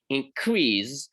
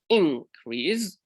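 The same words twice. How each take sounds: First: The stress is on the second syllable. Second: The stress is on the first syllable. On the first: It is a verb. "a verb when stress falls on the last or the second syllable" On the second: It is a noun. "the noun increase with stress on the first syllable"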